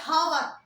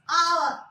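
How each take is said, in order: First: The word starts with an audible H sound. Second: The word starts with a vowel, no H sound. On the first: The speaker calls it wrong. "We don't say hour" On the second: The speaker calls it right. "here H sound is silent. It's hour"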